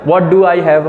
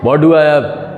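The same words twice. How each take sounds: First: It is said in an ordinary, plain voice. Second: It is said in a strong, heavy, deep voice. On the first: "normal person कैसे बोलते हैं" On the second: "बहुत तगड़ी आवाज है भारी"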